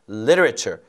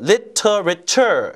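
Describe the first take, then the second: First: The t is a soft flap like an l. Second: The t is a clear, hard t sound. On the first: "T 발음은요. 리을 발음처럼 부드럽게 발음이 됩니다" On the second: "이렇게 안 하고"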